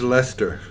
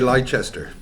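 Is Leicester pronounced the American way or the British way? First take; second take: British; American. First: It is pronounced the usual British way. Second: It is pronounced the way Americans say it.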